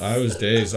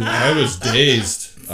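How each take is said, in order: First: Said in the usual way. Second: Very slow and a bit louder, words stretched; dazed, drawn out. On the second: Retold or imitated. Recalling hitting her head, drawling it out dazedly. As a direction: drag it out like you're still woozy.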